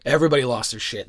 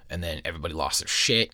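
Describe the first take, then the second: First: Louder, faster, punch everybody; emphatic louder repeat. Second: Said in the usual way. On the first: Real, not acted. Storyteller hammering home the classroom panic, loud and fast. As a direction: blurt it out again with a burst of energy.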